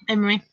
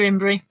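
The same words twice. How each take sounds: First: "Imrie" said with no B; M running straight into R in "Imrie"; corrected surname. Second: "Imbrie" said with a B after the M; surname slip, "Imbrie" as im-bree; mispronounced surname. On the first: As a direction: correct yourself to "Imrie", im-ree. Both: Real, not acted. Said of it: "Why did I say Imbrie?".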